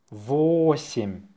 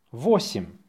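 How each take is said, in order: First: Slow, stretched-out dictation. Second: Brisk dictation repeat; faster. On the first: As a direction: draw the word out for learners. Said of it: "say it slowly". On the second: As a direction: say the word short and quick. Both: Shown as a demonstration.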